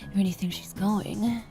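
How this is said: It is said in a put-on character voice.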